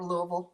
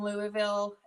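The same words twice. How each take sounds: First: It is said the local Kentucky way. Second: It is said in a general, non-local way.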